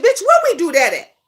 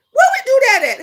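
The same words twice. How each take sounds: First: Said in the usual way. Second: Louder, higher challenge. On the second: Acted. Repeated rhetorical challenge.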